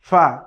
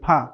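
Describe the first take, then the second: First: It is made with lip against upper teeth. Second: It is made with both lips together. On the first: The speaker calls it right. "সামনের উপরের দুই দাঁতের আগা এর সাথে লাগিয়ে" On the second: The speaker calls it wrong. "দুই ঠোঁট দিয়ে আমরা বলি ফা। ... এটি বলা যাবে না।"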